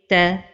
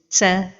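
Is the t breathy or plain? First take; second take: plain; breathy. First: The t has only light, normal breath. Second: The t has a lot of extra breath. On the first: The speaker calls it right. "la prononciation correcte est" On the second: The speaker calls it wrong. "l'erreur est de prononcer comme ceci"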